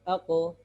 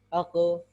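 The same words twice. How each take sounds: The two takes are said the same way.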